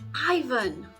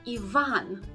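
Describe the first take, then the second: First: The first vowel sounds like "eye". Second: The first vowel sounds like "ee". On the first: The speaker calls it wrong. "this letter is never pronounced as the I sound" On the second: The speaker calls it right. "It's always pronounced as E"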